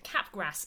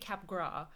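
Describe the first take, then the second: First: The name is pronounced in an English way. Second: The name is pronounced in a French way. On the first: The speaker calls it wrong. "I've been pronouncing it cap gras syndrome" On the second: The speaker calls it right. "it's by a French guy. So it's definitely cap gras"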